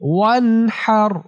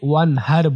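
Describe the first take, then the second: First: The h sound comes from the mid-throat. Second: The h sound is a plain, light h. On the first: The speaker calls it right. "হা কণ্ঠনালীর মাঝখান থেকে" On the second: The speaker calls it wrong. "অনেকে ওয়ানহার বলে, হার বলাটা ভুল উচ্চারণ, এখানে হা হবে না"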